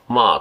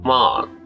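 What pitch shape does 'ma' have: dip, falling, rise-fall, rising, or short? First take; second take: falling; rise-fall. First: The pitch falls through the syllable. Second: The pitch goes up and then comes back down. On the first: "まあと下がるのと" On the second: "上がって戻るのと"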